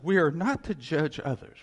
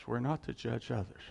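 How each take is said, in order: First: Emphatic. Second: Soft repeat. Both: Shown as a demonstration.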